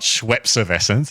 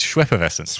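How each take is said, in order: First: The middle consonant is an s sound. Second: The middle consonant is an f sound. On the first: The speaker calls it wrong. "It's not Schweppesservescence" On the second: The speaker calls it right. "it's Schweppeffervescence"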